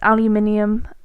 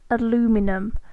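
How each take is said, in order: First: The word is said as aluminium. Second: The word is said as aluminum. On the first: The speaker calls it right. "but it's aluminium" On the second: The speaker calls it wrong. "that common mistake where you pronounce it aluminum"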